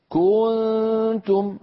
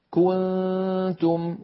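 First: "كنتم" with the kaf dragged out so a waw creeps in; wrong, stretched. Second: "كنتم" with a short, even kaf vowel, slow and chanted; correct, even. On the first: Teacher demonstrates the common reciting error. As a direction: overstretch the first vowel of "كنتم" into kuu, higher and slow. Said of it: "فإذا زاد كما نرى تنطق خطأ". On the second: Teacher gives the right way reciters must say it. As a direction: say "كنتم" cleanly, kaf vowel not lengthened. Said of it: "لابد أن يقول القائل والقارئ". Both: Shown as a demonstration.

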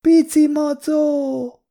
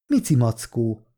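First: Put-on very high, drawn-out toddler voice; little girl. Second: Said in the usual way. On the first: A narrator's reading. Little girl pointing at the juice box, high childish voice. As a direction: squeal it slowly like a small child. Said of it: "mutatott a dobozos italra a kislány".

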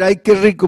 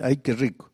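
First: Said in the usual way. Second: Low, soft mumble while brushing teeth; soft private murmur, pitched low; murmured to yourself. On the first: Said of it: "En lugar de decir". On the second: Retold or imitated. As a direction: mutter it quietly under your breath. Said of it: "solito te está lavando ahí".

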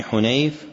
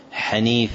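First: حنيف said Hunayf, u then ay; diminutive Hunayf. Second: حنيف said Haniif, short a then long ii; fatha on the ha. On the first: Teacher correcting a narrator's name, حنيف as Hunayf. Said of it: "هو بالتصغير دائما". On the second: Teacher showing the form never found, حنيف as Haniif. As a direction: say حنيف with an open first vowel, ha-NEEF. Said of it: "بفتح الحاء". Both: Shown as a demonstration.

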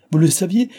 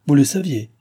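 First: « saviez » lancé très haut et fort, montée finale; « Vous le saviez? » crié avec « saviez » qui monte en flèche; scandalisé. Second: « le » appuyé, intonation descendante sèche; « Vous le saviez? » accentué sur « le », finale tombante; incrédule. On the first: Père répète, scandalisé. (le père répète la question, outré et plus fort) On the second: Père interroge la gouvernante. (le père vérifie, incrédule, sur « le » appuyé) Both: A narrator's reading.

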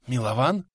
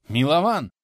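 First: MИЛОВАН asked with a rising, questioning end; questioning call. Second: «Милован!» louder and higher; insistent call. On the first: Old man checking on his companion Милован, questioning call. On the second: Old man calling Милован a second time, insistent call. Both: A narrator's reading.

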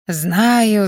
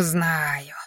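First: Said in the usual way. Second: A lower, much softer second "знаю", dropped away under the breath; old man brushing it off, grumbling "знаю" into nothing; mild grumble, repeated "знаю" fading low; grumbled. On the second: A narrator's reading. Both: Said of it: "проворчал дедуля".

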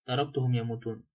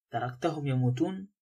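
First: "تركتهم يموتون" lower, as a plain statement; matter-of-fact admission. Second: "تركتهم يموتون" rising at the end as a question. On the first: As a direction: confirm "تركتهم يموتون" without any questioning lift. Lombard confirms it as a statement. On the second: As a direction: ask "تركتهم يموتون" with the pitch climbing on the last word. Listener challenges him with a question. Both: A narrator's reading.

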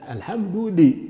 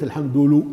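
First: "الحمد لي" broken off after a long clear "lii"; stressed kasra. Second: "الحمد لو" broken off on a "lu" syllable; wrong damma. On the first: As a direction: lean on the "li" in "الحمد لي". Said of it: "لابد من كسر". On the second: Teacher showing what not to say, "lu" for "li". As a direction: end "الحمد لو" on a rounded u. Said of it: "وليس". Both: Shown as a demonstration.

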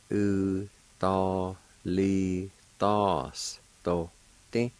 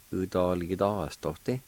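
First: "U, do, li, dos, do, ti" slow, each syllable separate. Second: Said in the usual way. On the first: Shown as a demonstration. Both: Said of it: "is pronounced like this".

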